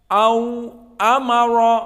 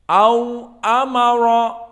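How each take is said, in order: Both takes have the same delivery.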